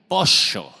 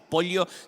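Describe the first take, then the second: First: It is said with an Argentine accent. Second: It is said with a neutral non-Argentine accent.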